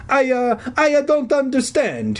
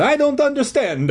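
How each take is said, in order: First: High, halting stage-Italian; stammering Italian accent. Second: High stage-Italian, barely halting; confused plea in hammed-up Italian; Italian accent stammer. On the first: Confused janitor answering the kids, stammering Italian accent. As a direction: stumble over it in an Italian accent. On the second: Confused janitor answering the kids, Italian accent with little stammer. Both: A narrator's reading. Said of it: "he stammered".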